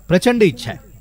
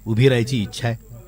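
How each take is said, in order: First: प्रचंड lifted high and leaned on, then falling; stress on प्रचंड. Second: Said in the usual way. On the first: Acted. Old factory to child, stressing प्रचंड. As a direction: hit प्रचंड hard as the wish swells. Repeats the wish, then intensifies.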